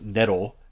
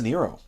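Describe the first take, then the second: First: The name is said with Japanese pronunciation. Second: The name is said with English pronunciation. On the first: "in Japanese pronunciation, it's Nero" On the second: "but Pizza Nero"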